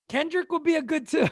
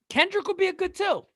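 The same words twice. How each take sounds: First: Said in the usual way. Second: Mock high voice. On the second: Repeats in a higher voice.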